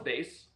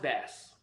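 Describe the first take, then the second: First: The vowel rhymes with 'face'. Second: The vowel rhymes with 'mass'. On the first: This was the original way of saying the name. "originally it was" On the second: This is the changed way others now say it. "now it's bass because they changed it"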